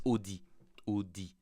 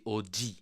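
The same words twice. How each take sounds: First: Audi as "oh-dee", clean plain d; Audi with a pure d, no buzz; standard French pronunciation. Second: Audi as "oh-dzee", heavily buzzed d; Audi said mockingly Quebec-style, OH-DZEE; exaggerated Quebec pronunciation. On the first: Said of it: "But they say Audi". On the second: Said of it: "they exaggerate". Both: Shown as a demonstration.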